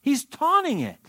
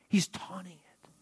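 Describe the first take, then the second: First: High-pitched emphatic declaration. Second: Hushed, whispered answer. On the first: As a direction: drive the point home with a high swoop on "taunting". Preacher drives home his point. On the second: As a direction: drop to a whisper, as if letting them in on it. Answers own question in hushed voice. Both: Real, not acted.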